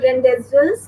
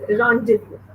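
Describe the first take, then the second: First: Rendezvous read as spelt, "REN-dez-vous"; mispronounced rendezvous. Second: Rendezvous said "RON-day-voo"; correct French rendezvous. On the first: Teacher showing pupils the mistake, rendezvous as spelt "ren-dez-vus". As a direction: sound the z and s in rendezvous. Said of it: "It's not rendezvous". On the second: Teacher showing children the right word, rendezvous as "ron-day-voo". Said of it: "So it is". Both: Shown as a demonstration.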